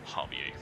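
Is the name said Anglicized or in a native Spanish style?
native Spanish. The name is said in a Spanish-style way. The speaker calls it right.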